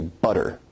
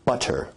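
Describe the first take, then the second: First: The middle t is a quick tongue tap. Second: The middle t is a full stop.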